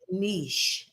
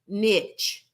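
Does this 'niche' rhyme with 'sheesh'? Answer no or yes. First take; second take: yes; no. First: The word rhymes with sheesh. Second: The word does not rhyme with sheesh. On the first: This is the most common pronunciation. "the most common pronunciation is niche. It rhymes with sheesh" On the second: This is the less common pronunciation. "The the other less common pronunciation is niche"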